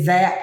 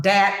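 First: Said in the usual way. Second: "dat" with a d for th; Gullah "dat". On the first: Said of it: "they say that". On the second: Shown as a demonstration. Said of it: "I use word like dat and they say that".

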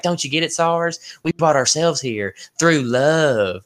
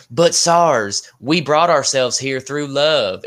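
First: Slow Southern drawl impression; hammed-up Southern accent, slowly. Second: Put-on Southern accent. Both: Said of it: "my Southern accent is horrible".

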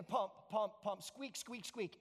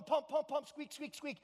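First: Measured pump noises with quieter squeaks; acted-out pumping. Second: Raised, insistent rhythm of a pump handle; harder pumping. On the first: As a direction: voice a rusty pump working gently. First pumping, nothing comes out. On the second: Acted. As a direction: pump away with more effort. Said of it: "he kept going harder".

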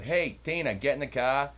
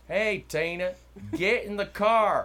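First: Loud, high Northern US accent. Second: Very loud, high, drawn-out Southern holler; Southern accent. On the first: Host imitates folks up north calling Tina, Northern accent. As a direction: call Tina over in a mock Northern accent. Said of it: "Okay, up north you have". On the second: Host imitates same people down here, hollered Southern accent. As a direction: holler for Tina in a broad Southern drawl. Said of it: "Same exact sentence, but Southern". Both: Shown as a demonstration.

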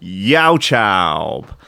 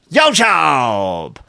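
First: Said in the usual way. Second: Youtube drawn out in a vague put-on accent; a made-up accent, played for laughs; unplaceable mock accent. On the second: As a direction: ham up a random foreign accent on Youtube. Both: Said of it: "I've no idea what accent that is".

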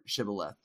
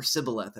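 First: Said in the usual way. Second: Sibboleth with a plain s in place of sh; s sound starting sibboleth; missing sh sound. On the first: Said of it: "instead of shibboleth". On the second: Shown as a demonstration. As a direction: say sibboleth, opening on s. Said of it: "couldn't make the S H sound".

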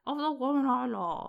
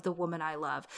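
First: Edward. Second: Said in the usual way. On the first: Retold or imitated. King quoting his abdication broadcast, mock posh British accent. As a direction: imitate a royal radio address in posh British. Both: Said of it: "Except he says it like".

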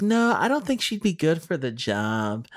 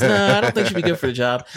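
First: Put-on old lady voice. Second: Put-on high, fast old lady voice. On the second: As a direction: play a fussy old lady on the phone. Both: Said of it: "that's my old lady voice".

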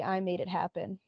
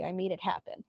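First: I stretched and leaned on, made left light; stress on I. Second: Made leaned on, the rest dropping softer; stress on made. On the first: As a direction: hit the word I, not made. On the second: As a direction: hit the word made and let it fall. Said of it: "Uh, no, actually, I made it happen". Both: Retold or imitated.

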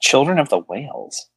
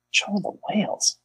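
First: Said in the usual way. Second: High breathless whisper of the title. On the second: Shown as a demonstration. Repeats title, second time whispered.

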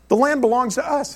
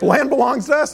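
First: Partner's matter-of-fact claim, pitched high; retold assertion. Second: High, louder incredulous echo; retold disbelief. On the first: Israeli partner explaining whose land it is, matter-of-fact assertion. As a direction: state it high as a simple settled fact. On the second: Baffled visitor echoing the partner's claim back, incredulous.

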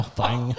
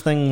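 First: "thing" said as a twangy "thang"; country twang. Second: Said in the usual way. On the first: Shown as a demonstration. Laughing that he can't say it, "thing" twanged as "thang". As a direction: widen the vowel in "thing" to "thang". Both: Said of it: "I can't say that".

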